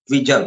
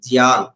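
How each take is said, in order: First: The name is said as two syllables, dvijan. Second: The name is said as one syllable, dhyan. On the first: "ద్విజన్ అని గూడా అనొచ్చు మనం" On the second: "ధ్యాన్ అన్నగా మనం ఆహ్, పలుకుతాం"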